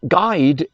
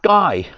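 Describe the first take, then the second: First: The name ends with a clear D sound. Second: The name ends without any D sound. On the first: "G U I D E" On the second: "they find the D very hard to say"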